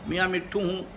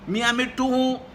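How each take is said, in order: First: It is said softly and affectionately. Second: It is said in a loud shout. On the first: "बड़े प्यार से" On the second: "चिल्लाकर"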